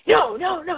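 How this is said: It sounds angry.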